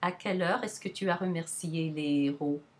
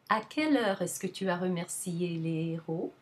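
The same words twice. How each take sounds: First: The word quelle is pitched flat. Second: The word quelle is pitched high. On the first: "Just the flatter" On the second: "the interrogative adjective has the higher pitch"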